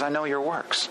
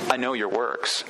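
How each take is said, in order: First: It is said in a warm, reassuring tone. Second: It is said in a warning, ominous tone. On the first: The listener's struggles are seen and valued. "And that's comforting" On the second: Everything hidden is known, which is alarming. "if you change the tone a little bit"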